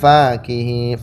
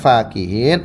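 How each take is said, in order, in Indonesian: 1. Vokal pertama, setelah f, itu panjang. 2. Vokal pertama, setelah f, itu pendek. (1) "fa-nya itu dipanjangkan" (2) "fa-nya dipendekkan"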